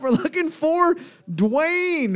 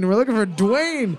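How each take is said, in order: First: Drawn-out high announcement; slow announcing call. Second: Said in the usual way. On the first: Acted. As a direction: stretch each word like a game host.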